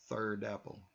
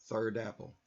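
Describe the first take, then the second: Both takes have the same delivery.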